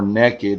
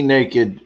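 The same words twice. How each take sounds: First: It is said with a Texan pronunciation. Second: It is said with a standard pronunciation.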